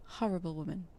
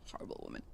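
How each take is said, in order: First: Said in the usual way. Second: Horrible woman whispered, voiceless and much softer; whispered aside. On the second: Shown as a demonstration. Whispering horrible woman to the viewers about a rude customer. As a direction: breathe horrible woman under the breath.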